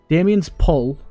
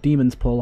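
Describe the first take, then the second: First: The first word sounds like Damien. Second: The first word sounds like demon. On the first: "I always pronounce that Damien" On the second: "however they pronounce that"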